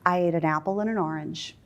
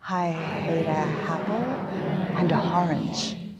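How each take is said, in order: First: The vowels start plainly and naturally. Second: The vowels start with breathy h sounds.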